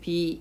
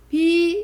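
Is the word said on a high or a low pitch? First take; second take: low; high. First: The word is said on a low pitch. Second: The word is said on a high pitch. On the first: "낮은 소리 비 이렇게 되죠" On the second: "비 이렇게 하면 높은 소리죠"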